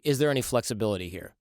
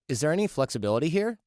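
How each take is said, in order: First: The voice stays level or falls, like a statement. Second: The voice rises at the end, like a question. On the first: The question sounds confident and assertive. The speaker calls it right. "You say" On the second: The question sounds uncertain and tentative. The speaker calls it wrong. "You don't say"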